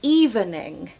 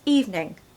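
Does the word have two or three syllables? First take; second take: three; two. First: The word is said with three syllables. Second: The word is said with two syllables. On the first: The speaker calls it wrong. "Everyone wants to say evening" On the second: The speaker calls it right. "it's two syllables, not three"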